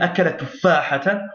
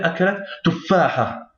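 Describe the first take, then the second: First: The last word ends with an n sound. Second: The last word ends with a vowel. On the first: "On dira ou bien akalat tuffahatan" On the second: "ou bien akalat tuffaha"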